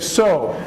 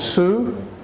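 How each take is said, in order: First: The word is said the same as 'so'. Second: The word is said the way it is spelled. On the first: The speaker calls it right. "We say sew. They sound the same" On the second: The speaker calls it wrong. "you said it the way it looks, which is sew"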